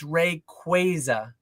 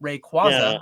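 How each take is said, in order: First: The middle syllable sounds like kway. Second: The middle syllable sounds like kwah. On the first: This is the official pronunciation. "it's it's Rayquaza. It's not Rayquaza" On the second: This is the speaker's habitual pronunciation. "I pronounce it Qua"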